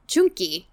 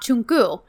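First: The final vowel sounds like an i. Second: The final vowel sounds like a u. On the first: This is the older form of the word. "he says it the old Turkish way" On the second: This is the current standard form of the word. "say it with a U and not an I"

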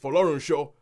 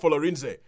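First: The name is given its Yoruba pronunciation. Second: The name is given a non-Yoruba pronunciation. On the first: The speaker calls it right. "it's Folorunsho" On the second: The speaker calls it wrong. "it's not Folorinze"

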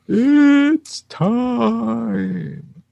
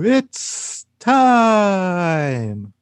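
First: The word "it's" is drawn out much longer. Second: The word "it's" is only slightly drawn out.

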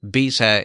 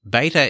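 First: The word has a British pronunciation. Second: The word has an American pronunciation. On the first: "beta is everywhere else in British English" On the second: "Beta is American"

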